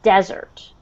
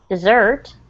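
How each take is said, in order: First: The stress is on the first syllable. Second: The stress is on the second syllable. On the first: A hot, sandy place. "the stress is on the first syllable" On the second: Something sweet eaten after dinner. "the emphasis is on the second syllable, like this"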